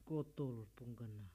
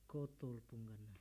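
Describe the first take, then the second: The two takes are said the same way.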